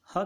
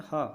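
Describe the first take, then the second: First: Said in the usual way. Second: ह said alone as a clear breathy h sound with a short a; the sound ह shown. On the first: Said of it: "इसका उच्चारण ह की तरह होता है". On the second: Shown as a demonstration. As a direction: set ह apart and breathe it out as a clean h. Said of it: "ध्यान रखेंगे ह".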